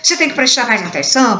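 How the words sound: It is said in a calm, natural tone. The listener is gently advised for next time. The speaker calls it right. "falar naturalmente"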